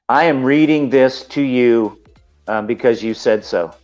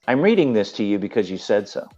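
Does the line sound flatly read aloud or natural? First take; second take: read aloud; natural. First: It sounds flat, like text read off a page. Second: It sounds lively, like natural believable speech. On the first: The speaker is only reading words. The speaker calls it wrong. "you can't read something a script and just sound like you're reading it" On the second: The speaker means what is said. The speaker calls it right. "The difference is going more like"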